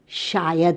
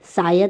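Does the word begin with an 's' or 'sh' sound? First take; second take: sh; s. First: The word begins with a sh sound. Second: The word begins with a plain s sound. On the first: The speaker calls it right. "दंत स के जगह पर तालव्य श" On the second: The speaker calls it wrong. "दंत स के जगह पर तालव्य श"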